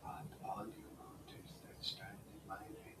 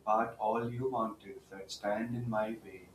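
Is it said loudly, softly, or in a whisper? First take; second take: whisper; loudly. First: It is said in a whisper. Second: It is said in a full, louder voice.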